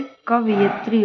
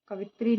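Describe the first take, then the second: First: "कवयित्री" with sounded "yi"; correct y syllable. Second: "कवित्री" as three syllables, "ka-vi-tri"; wrong missing syllable. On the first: Teacher gives the correction, full "कवयित्री". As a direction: spell out यि in "कवयित्री". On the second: Teacher shows the mistake, y-less "कवित्री". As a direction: skip the y in "कवित्री". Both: Shown as a demonstration. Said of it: "ना होके कवयित्री होता है".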